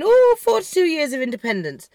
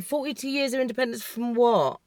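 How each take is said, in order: First: Put-on celebratory "oh", swooping high then falling; mock celebrating. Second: Softly baffled, questioning the celebration; understated, incredulous question; gobsmacked. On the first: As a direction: imitate a crowd's gushing celebration. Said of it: "they were all celebrating". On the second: Retold or imitated. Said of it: "I was gobsmacked".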